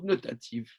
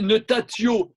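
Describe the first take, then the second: First: The word ends in a 'v' consonant. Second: The word ends in an 'o' vowel. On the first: This is how the word is actually pronounced. The speaker calls it right. "mais ça se prononce notative" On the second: This is the regular form the word would have had. The speaker calls it wrong. "Ça aurait été notatio"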